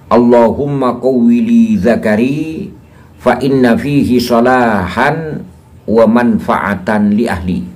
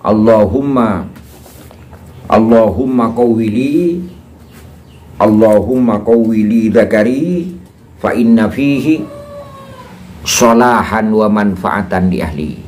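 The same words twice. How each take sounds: First: It is recited at a normal pace. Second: It is recited at a slow pace. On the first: "Saya ulangi" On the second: "Saya ulangi secara pelan"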